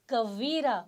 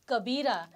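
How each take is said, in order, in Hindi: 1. बीच का व्यंजन 'v' की आवाज़ है। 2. बीच का व्यंजन 'b' की आवाज़ है। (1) "इट्स कवीरा। व व" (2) "इट्स नॉट कबीरा"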